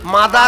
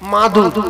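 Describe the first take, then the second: First: The last syllable has an 'a' vowel. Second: The last syllable has a 'u' vowel. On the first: The speaker calls it wrong. "মাদার হবে না" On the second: The speaker calls it right. "মাঝখান থেকে মাদুর মনে থাকবে"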